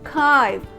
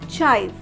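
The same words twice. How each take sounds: First: The syllable begins with a 'k' sound. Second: The syllable begins with a 'ch' sound. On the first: The speaker calls it right. "it will be spelled as K I V E" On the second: The speaker calls it wrong. "mispronounced as chive"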